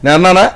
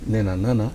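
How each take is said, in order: First: It is said loudly and forcefully. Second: It is said softly with a lowered voice. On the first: The character is confronting the other person. The speaker calls it right. "అని మాట్లాడాల్సి వచ్చినప్పుడు" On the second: The actor holds back to seem polite. The speaker calls it wrong. "అలాగే నేను అన్నానా, ... బాగుండదు"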